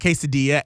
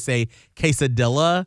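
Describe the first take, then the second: First: The word is pronounced in the standard way. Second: The word is pronounced in a playful, nonstandard way. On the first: "And not quesadilla" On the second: "in a very fun way"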